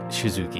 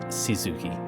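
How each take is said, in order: First: The name begins with an sh sound. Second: The name begins with a plain s sound. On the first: "it's more like Shizuki" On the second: "instead of just Shizuki"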